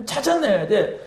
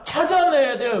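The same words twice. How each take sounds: First: Said in the usual way. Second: 찾아내야를 높게 힘주어; "찾아내야"를 높은 음으로 강하게; stress on 찾아내야. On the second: Real, not acted. (찾아내야를 높이 올려 강조)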